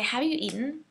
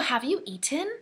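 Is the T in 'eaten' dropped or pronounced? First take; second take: dropped; pronounced. First: The T in eaten is dropped. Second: The T in eaten is clearly pronounced. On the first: The speaker calls it right. "the T is taken out" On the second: The speaker calls it wrong. "We don't say that"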